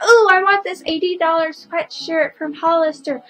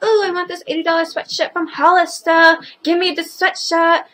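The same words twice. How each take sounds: First: Lightly voiced whiny kid, higher; a hint of a spoiled kid asking for things; bratty kid voice. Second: Mock whiny kid, a bit higher; lightly voiced bratty demand; spoiled kid voice. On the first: Vlogger mimics a spoiled kid wanting a sweatshirt, light whine. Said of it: "a kid will be like". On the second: Vlogger imitates kids demanding a Hollister sweatshirt, mock whine. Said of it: "kids are like".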